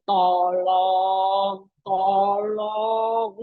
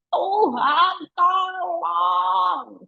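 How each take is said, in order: First: Lazy sing-song tolong, tolong; mock a careless, casual asking; half-hearted plea. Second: Earnest cry. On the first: Preacher mocking a limp, casual prayer. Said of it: "nggak mungkin memohonnya bilang gini". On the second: Preacher showing a dying man's real cry. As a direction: cry out to God in need. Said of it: "segenap teriak". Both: Shown as a demonstration.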